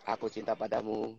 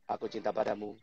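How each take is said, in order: The two takes are said the same way.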